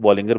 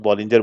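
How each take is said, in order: First: Bollinger said with a hard g, "BOL-ing-ger"; hard-g pronunciation. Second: Bollinger said with a j sound, "BOL-in-jer"; soft-g pronunciation. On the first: Trading teacher showing how others say it, Bollinger with a hard g. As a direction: say Bollinger with the g as in "finger". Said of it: "कई लोग Bollinger बोलते हैं". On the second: Trading teacher showing how some people say it, Bollinger with a j sound. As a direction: say Bollinger with the g as in "gem". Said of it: "कुछ लोग Bollinger बोलते हैं". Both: Shown as a demonstration.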